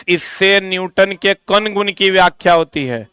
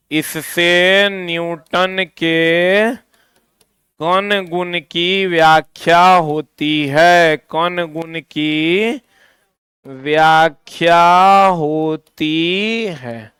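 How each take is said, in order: First: Said in the usual way. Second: Very slow, drawn-out dictation. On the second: Shown as a demonstration. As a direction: stretch each phrase out for note-takers, pausing between phrases. Dictating for students to write. (धीरे-धीरे, खींचकर लिखवाते हुए)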